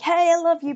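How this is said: The voice is strong and forceful. The feeling comes across too strongly. The speaker calls it wrong. "if you don't want to sound off too strong, like hey, I love you"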